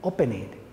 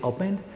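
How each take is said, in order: First: The -ed ending is said as an extra syllable. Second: The -ed ending adds no extra syllable. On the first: The speaker calls it wrong. "What if we say opening? They don't understand" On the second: The speaker calls it right. "we say opened"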